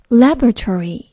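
It is said with an American accent.

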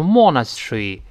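It is said in a British accent. "英国人读成monastery"

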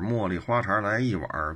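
It is said in a Beijing accent, with erhua.

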